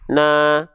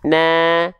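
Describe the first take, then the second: First: The vowel is said with a plain open mouth. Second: The vowel is said with a slight smile. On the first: The speaker calls it wrong. "kalau kita hanya sekedar membuka mulut saja" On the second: The speaker calls it right. "senyumin sedikit"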